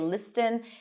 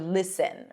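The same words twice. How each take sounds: First: The T is pronounced. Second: The T is silent. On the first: The speaker calls it wrong. "We don't say listen" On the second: The speaker calls it right. "something that we don't see in fasten or listen"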